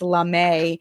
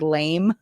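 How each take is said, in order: First: The word is said as two syllables. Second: The word is said as one syllable. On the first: The speaker calls it right. "but it's not lame. It's Lame" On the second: The speaker calls it wrong. "I thought it said lame"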